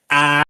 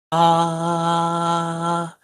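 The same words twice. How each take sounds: First: Loud buzzy "ah" with pressed folds. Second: Soft airy open "ah". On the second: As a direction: let the tone open, less intense. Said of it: "more soft". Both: Shown as a demonstration.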